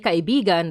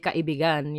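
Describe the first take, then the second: First: The stress falls before the last syllable. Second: The stress falls on the last syllable. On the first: It means friend. "that's friend" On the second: It means lover. "that's lover"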